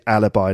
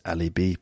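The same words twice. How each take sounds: First: It is said with an English pronunciation. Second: It is said with a French pronunciation. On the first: "in English, yeah, we pronounce it alibi" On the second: "I think in French it's alibi"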